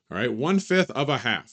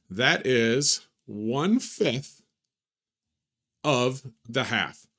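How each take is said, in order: First: Said in the usual way. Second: Slow, carefully spaced words; slow and deliberate. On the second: Shown as a demonstration. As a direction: spell it out slowly for students.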